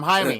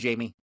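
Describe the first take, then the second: First: The name is said with its Spanish pronunciation. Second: The name is said as the English name Jamie. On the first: The person is saying his own name. The speaker calls it right. ""Hey, I'm Jaime,"" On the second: Others mispronounce his name. The speaker calls it wrong.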